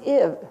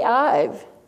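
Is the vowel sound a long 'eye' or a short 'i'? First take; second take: short i; long eye. First: The vowel is a short 'i' sound. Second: The vowel is a long 'eye' sound. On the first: The speaker calls it right. "It says IV" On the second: The speaker calls it wrong. "IVE doesn't say I've"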